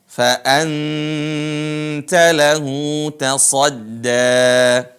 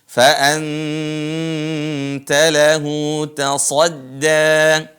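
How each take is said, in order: Both takes have the same delivery.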